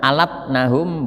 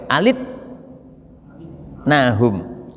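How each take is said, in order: First: The vowel after the L is 'a'. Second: The vowel after the L is 'i'. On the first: "Lamnya di fathah" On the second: "wa kasriha dibaca kasroh boleh"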